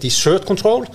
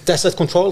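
First: The stress is on the second syllable of desert. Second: The stress is on the first syllable of desert. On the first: It sounds like a company controlling dessert. The speaker calls it wrong. "så kan jo dette fremstå som et selskap som jobber med å få kontroll på desserten" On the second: It names a company working with deserts. The speaker calls it right. "så det greit"

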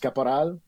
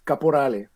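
First: The surname is said with a French accent. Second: The surname is said with an Italian accent. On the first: This is the Quebec French way. "there's the Francophone way, which is Caporal" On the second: This is the father's family way. "My dad's Italian, so it's an Italian last name"

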